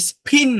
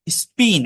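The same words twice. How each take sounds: First: "স্পিন" with a puffed, aspirated p, like s-phin; wrongly aspirated p. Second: "স্পিন" with an unaspirated p, no puff of air; non-aspirated p. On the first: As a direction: blow air on the p of "স্পিন". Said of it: "এটা কিন্তু স্পিন না". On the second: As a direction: say "স্পিন" with a dry p after the s. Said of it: "non aspirated হয়". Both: Shown as a demonstration.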